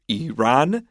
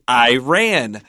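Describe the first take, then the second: First: The name does not sound like 'I ran'. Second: The name sounds like the phrase 'I ran'. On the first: "most educated people would call this country Iran" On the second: It is the blue-collar way from a poor neighborhood. "we used to call it Iran. And like Iran, like I ran so far away"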